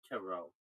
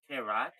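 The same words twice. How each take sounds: First: It is said with a French-style pronunciation. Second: It is said to rhyme with carrot. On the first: The speaker calls it right. "it's French. Yeah, it's tarot" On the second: The speaker calls it wrong. "Like carrot, carrot?"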